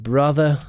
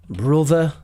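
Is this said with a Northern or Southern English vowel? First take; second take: Southern; Northern. First: The first vowel is open and unrounded, like uh. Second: The first vowel is rounded, like in look. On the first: "instead of brother" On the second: "Brother instead of brother"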